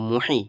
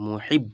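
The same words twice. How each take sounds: First: "মুহি" with open long ee ending; missing tashdid. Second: "মুহিব" closed firmly on b; with tashdid. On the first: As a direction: leave "মুহি" open, no doubled b. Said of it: "এ, sorry, এখানে তাজদিদ দেওয়া আছে". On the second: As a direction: shut the syllable "মুহিব" on the b. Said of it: "এখানে তাজদিদ দেওয়া আছে". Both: Shown as a demonstration.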